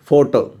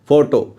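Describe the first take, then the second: First: The second vowel is reduced to schwa. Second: The second vowel is reduced to schwa.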